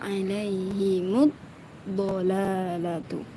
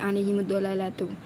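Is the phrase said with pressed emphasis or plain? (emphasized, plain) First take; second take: emphasized; plain. First: The phrase is said with pressed emphasis. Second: The phrase is said without pressed emphasis. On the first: The speaker calls it right. "Lebih sempurna" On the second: The speaker calls it wrong. "belum ada penekanannya"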